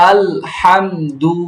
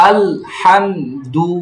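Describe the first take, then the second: No difference in how they are said.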